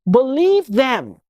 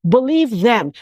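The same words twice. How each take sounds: First: Believe them said slowly, weighing each word; slow emphatic plea. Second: Said in the usual way. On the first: Real, not acted. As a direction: plead slowly, leaning on Believe. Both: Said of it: "repeated plea to listeners".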